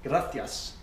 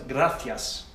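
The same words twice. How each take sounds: No difference in how they are said.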